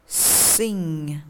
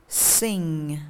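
No difference in how they are said.

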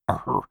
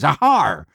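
First: It is said in a plain, toned-down voice. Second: It is said in a hearty pirate voice.

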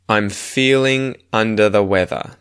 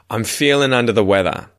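First: It is spoken slowly and carefully. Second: It is spoken quickly with words run together.

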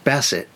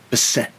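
First: The stress is on the first syllable. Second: The stress is on the last syllable. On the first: The speaker calls it right. "It's pronounced Bassett" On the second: The speaker calls it wrong. "not Bassett"

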